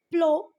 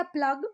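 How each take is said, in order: First: "प्लो" said with an open o ending, no g; taught pronunciation. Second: "प्लग" said with a short vowel and closing g; alternative pronunciation. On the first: Teacher shows how her teachers said it, taught pronunciation "प्लो". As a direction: say "प्लो" louder, ending on a long o. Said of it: "हमारे teachers ने इसको प्लो पढ़ा था". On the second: Teacher shows students another reading, alternative pronunciation "प्लग". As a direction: say "प्लग", ending on a hard g. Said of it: "कुछ लोग इसको प्लग भी पढ़ते हैं". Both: Shown as a demonstration.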